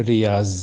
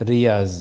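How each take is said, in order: Both takes have the same delivery.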